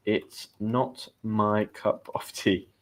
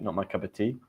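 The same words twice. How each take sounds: First: Slow word-by-word teaching delivery; slow, careful. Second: Said in the usual way. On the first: Shown as a demonstration. Teacher explaining an idiom to learners, slow and careful. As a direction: spell it out slowly, word by word.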